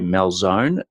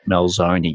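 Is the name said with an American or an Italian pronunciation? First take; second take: American; Italian. First: The name is said with an American pronunciation. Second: The name is said with an Italian pronunciation. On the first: The speaker calls it right. "I've got to say Malzone" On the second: The speaker calls it wrong. "not Malzoni"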